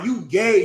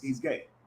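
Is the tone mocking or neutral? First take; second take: mocking; neutral. First: It is said in a mocking, insulting tone. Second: It is said in a plain, neutral tone.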